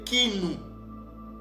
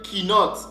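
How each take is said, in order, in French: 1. Le mot se termine par une voyelle. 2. Le mot se termine par un son 't'. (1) "ça se lisait qui nous" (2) "ne va pas se lire qui note"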